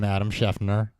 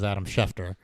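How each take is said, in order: First: The surname has an added n sound inside it. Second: The surname has no n sound inside it. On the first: The speaker calls it wrong. "he adds in an N" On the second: The speaker calls it right. "one of Dan's most common mispronunciations is"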